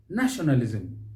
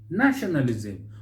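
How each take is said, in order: First: The stress falls on the first syllable. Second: The stress falls on the first syllable.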